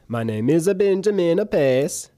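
It is spoken with an Italian accent.

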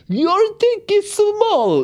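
It is said in a Russian woman's voice.

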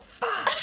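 The word is said in a sharp, angry tone. It expresses anger. "When you're angry, it's like"

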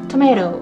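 It is said with an American accent. "アメリカ系の場合はトメロになるので"

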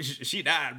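It is said in a casual, offhand tone. The death is treated as no big deal. The speaker calls it right. "in a different tone. Like a Chad tone"

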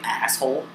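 It is said in an American accent.

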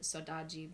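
It is said in a Brazilian Portuguese accent.

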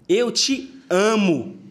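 The stress is on amo.

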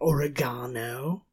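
The word is said the British way. "They call it oregano"

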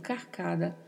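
The s before the c sounds like a light r. "É pronunciado com um leve som de R, mas bem suave mesmo"

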